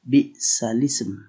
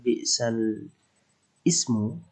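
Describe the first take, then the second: First: The glottal stop is dropped, vowel joins 'l'. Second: A glottal stop is heard before 'ism'. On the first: "dibaca naql dengan bi'salism" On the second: "lafal bi'sal ismu"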